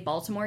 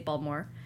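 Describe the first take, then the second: First: It is said in a standard accent. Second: It is said in a local Baltimore accent. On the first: "you wouldn't say Baltimore" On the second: "you'd say Baltimore"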